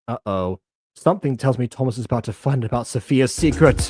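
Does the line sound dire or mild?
mild. The line is read in a milder, lighter way. The situation seems less serious. The speaker calls it right. "There you go. Maybe better"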